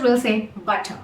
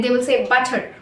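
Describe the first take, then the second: First: "butter" ending in a soft schwa, no R; British butter. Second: "butter" with the final R sounded; American butter. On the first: Teacher showing the British way, R dropped. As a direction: drop the R: "butter" ends in uh. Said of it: "whereas in British English". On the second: Teacher showing the American way, R sounded at the end. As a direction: say "butter" ending in a clear R. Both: Shown as a demonstration.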